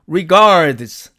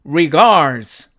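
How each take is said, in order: First: The d before the final z is pronounced. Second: The d is dropped, leaving only z. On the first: "사전식 발음으로는" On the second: "드가 사라지고 결국 즈만 살아남았죠"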